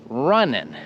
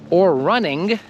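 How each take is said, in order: First: The word ends without a G sound. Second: The word ends with a clear G sound. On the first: The speaker calls it right. "we don't pronounce those consonants" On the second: The speaker calls it wrong. "that does not sound natural"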